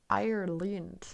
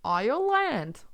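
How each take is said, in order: First: "Ireland" with the ending softened to "lind"; Irish pronunciation. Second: "Ireland" with the ending said "land", a first try; trying Irish pronunciation. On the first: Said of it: "And say Ireland instead of land". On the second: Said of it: "How would you say it?". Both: Shown as a demonstration.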